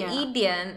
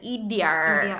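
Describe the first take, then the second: First: The word ends without an R sound. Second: The word ends with a hard R sound. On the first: This is the Southern Chinese way. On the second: This is the Beijing way.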